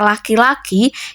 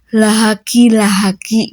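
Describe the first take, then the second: First: It is said plainly with no added h sound. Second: An extra h sound is inserted after each first syllable. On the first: The standard pronunciation. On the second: A speaker with a speech disorder says it.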